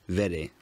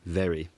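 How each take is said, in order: First: The r sound is a quick tap. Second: The r sound is not tapped. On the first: "it can be tapped" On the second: "rather than very"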